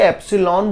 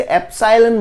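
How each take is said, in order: First: एप्सिलॉन said "EP-si-lon", short i; short-i pronunciation. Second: एप्सिलॉन said "ep-SIGH-len"; long-i pronunciation. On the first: Teacher showing students one variant, एप्सिलॉन as "EP-si-lon". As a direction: say एप्सिलॉन with "sil" as in silk, ending "lon". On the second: Teacher showing students another variant, एप्सिलॉन as "ep-SIGH-len". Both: Shown as a demonstration. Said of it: "अब English pronunciation का कुछ".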